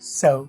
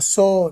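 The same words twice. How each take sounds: First: The final vowel glides with rounded lips. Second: The final vowel is a flat, pure 'o'. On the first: The speaker calls it right. "ये ओ पर जो word खत्म होते हैं वो round होते हैं" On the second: The speaker calls it wrong. "ओ नहीं बोलना"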